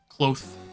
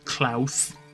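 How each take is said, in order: First: The vowel is like the one in 'cloth'. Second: The vowel is like the one in 'cloud'.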